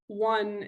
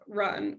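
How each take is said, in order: First: One said slow with a w for the r; gliding r. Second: Said in the usual way. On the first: Shown as a demonstration. Therapist modelling a toddler's w for r. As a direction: glide the r into a w in one. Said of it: "So this is". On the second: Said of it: "instead of run".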